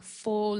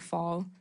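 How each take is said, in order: First: British-style vowel in "full". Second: Said in the usual way. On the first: Retold or imitated. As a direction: say "full" as a British-accented "fall", vowel rounded. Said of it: "He, he says, like". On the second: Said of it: "instead of".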